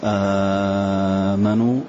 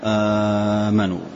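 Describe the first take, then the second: First: The opening long vowel is held very long. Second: The opening long vowel is held short. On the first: "مد" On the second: "والقصر"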